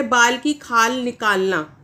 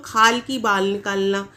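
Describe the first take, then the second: First: बाल की खाल निकालना said slowly and clearly in the right order; correct idiom, slow. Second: खाल की बाल निकालना said slowly with the words swapped; wrong idiom, slow. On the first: Teacher reads the correct idiom slowly. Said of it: "ये एक सही मुहावरा है". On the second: Teacher slowly demonstrates the idiom said wrongly. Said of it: "क्या बोल देते हैं कुछ लोग". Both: Shown as a demonstration.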